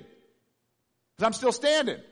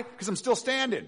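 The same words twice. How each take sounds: First: Very slow, loud, drawn-out standing; slowed emphatic repeat. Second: Higher, ringing declaration; emphatic answer. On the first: To the congregation, repeating slowly for weight. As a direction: stretch every word for weight. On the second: To the congregation on why joy, an emphatic answer. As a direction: proclaim you're still standing. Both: Real, not acted.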